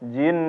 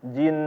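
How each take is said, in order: First: The final n is pressed with a raised pitch. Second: The final n is held without any push. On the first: The speaker calls it wrong. "bukan dinaikin atau bukan ditekan" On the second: The speaker calls it right. "bukan dinabar tapi ditahan"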